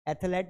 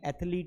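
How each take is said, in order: First: The second syllable sounds like 'let'. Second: The second syllable sounds like 'leet'. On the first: The speaker calls it wrong. "एथलेट नहीं है" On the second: The speaker calls it right. "एथलीट होता है"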